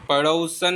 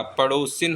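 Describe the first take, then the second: First: पड़ोसन ending in "-san"; wrong ending. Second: पड़ोसिन ending in "-sin"; short i before the n of पड़ोसिन; correct ending. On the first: Teacher showing the mistake, पड़ोसन said with "-san". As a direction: say short a before the n of पड़ोसन. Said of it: "पड़ोसन नहीं होता". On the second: Teacher giving the correction, पड़ोसिन said with "-sin". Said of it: "पड़ोसिन होता है". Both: Shown as a demonstration.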